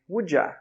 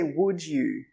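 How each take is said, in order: First: The word 'you' is reduced to 'ya'. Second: The word 'you' is said in full. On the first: The speaker calls it right. "we say would ya" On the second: The speaker calls it wrong. "we don't say would you"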